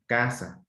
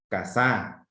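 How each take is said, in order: First: "Casa" with the weight on CA, second syllable falling; stress on CA. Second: "casá" stressed on the second syllable, ca-SÁ; stress on final Á. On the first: Teacher contrasting the correct word with a false one, stress on CA. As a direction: hit the first syllable of "Casa". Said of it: "la sílaba de mayor intensidad está en K". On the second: Teacher showing pupils a nonexistent word, stress on final Á. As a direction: throw the weight onto SÁ in "casá". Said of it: "Si lo pongo en la segunda A". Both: Shown as a demonstration.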